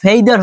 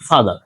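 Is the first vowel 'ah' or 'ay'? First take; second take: ay; ah. First: The first vowel is an 'ay' sound. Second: The first vowel is an open 'ah' sound. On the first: The speaker calls it wrong. "ফেইদার হবে না" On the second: The speaker calls it right. "ফাদার হবে"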